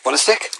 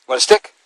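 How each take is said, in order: First: Said in the usual way. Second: High dog talk. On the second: Real, not acted. Baby-talk offering stick to dog.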